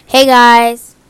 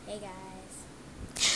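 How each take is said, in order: First: Loud, right into the mic; close to the mic. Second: Distant and faint; far from the mic. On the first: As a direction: lean into the microphone. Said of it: "in the mic". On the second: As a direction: speak from across the room. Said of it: "far from the mic". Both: Shown as a demonstration.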